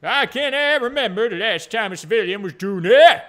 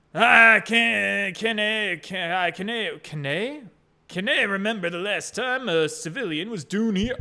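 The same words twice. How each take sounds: First: Loud, hammed-up Scottish accent; funny Scottish voice. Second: Tentative attempt at a Scottish accent; funny Scottish voice. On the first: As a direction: go all in on a bad, blustering Scottish burr. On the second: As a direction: feel your way into Scottish, restarting. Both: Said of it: "does he talk a little bit funny?".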